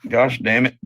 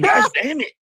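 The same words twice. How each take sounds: First: It is said flatly, with little energy. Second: It is said with more energy and feeling.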